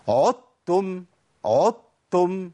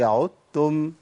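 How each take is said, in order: First: عدتم with the dal stressed hard, very slow; wrong stress. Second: عدتم with the dal merged into the ta; correct pronunciation. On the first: Retold or imitated. Sheikh imitating a common recitation error. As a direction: drag out عدتم, hitting the dal. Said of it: "وبعضهم بيقول". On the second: Shown as a demonstration. Sheikh giving the right form after the mistake. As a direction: say عدتم smoothly, dal blended. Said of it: "هي".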